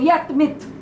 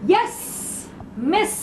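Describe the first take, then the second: First: The s sounds come out as t and th. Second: The s sounds are said as clear s. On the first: The speaker calls it wrong. "You are saying yet, myth" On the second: The speaker calls it right. "Wrong, wrong, wrong"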